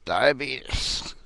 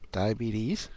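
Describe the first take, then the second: First: Slow, drawn-out "diabetes" as "diabeetus"; improper pronunciation. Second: "diabetes" ending in a clear "teez"; proper pronunciation. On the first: Asking doctors if they say it wrong, "diabetes" as "diabeetus". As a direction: say "diabetes" slowly as die-uh-BEE-tus, mockingly. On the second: Asking doctors the proper way, "diabetes" ending in "-eez". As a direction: say "diabetes" as die-uh-BEE-teez. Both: Shown as a demonstration. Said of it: "say it the proper way".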